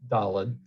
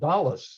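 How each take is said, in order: First: It is said in a non-Ashkenazi Hebrew pronunciation. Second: It is said in an Ashkenazi Hebrew pronunciation. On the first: "this chant was"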